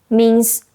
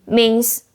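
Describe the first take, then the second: The two takes are said the same way.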